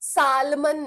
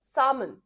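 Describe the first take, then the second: First: The L sound is pronounced in the word. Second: The L sound is left out of the word. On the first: The speaker calls it wrong. "Salmon नहीं" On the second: The speaker calls it right. "L is silent"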